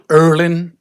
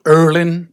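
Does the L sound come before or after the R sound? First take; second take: after; after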